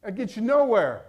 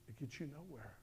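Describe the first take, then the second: First: Louder, firm preaching of the line; firm declaration. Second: Much softer, hushed echo of the line; quiet repeat. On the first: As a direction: hammer it home to the congregation. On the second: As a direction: drop it to near silence. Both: Shown as a demonstration.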